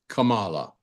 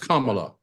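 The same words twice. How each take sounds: First: The name is said the disputed way. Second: The name is said the standard way. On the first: The speaker calls it wrong. "Her name is not Kamala" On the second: The speaker calls it right. "it's Kamala"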